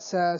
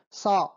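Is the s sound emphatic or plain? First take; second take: plain; emphatic. First: The s sound is light and plain. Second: The s sound is strong and emphatic. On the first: "la S normal" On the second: "se pronuncia como Sa, como la S fuerte enfática"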